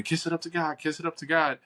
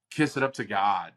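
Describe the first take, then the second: First: High-pitched mock yell at ordinary volume; mock scream. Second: Said in the usual way. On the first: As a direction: imitate everyone crying out, pitched up without real shouting. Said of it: "everybody would be screaming".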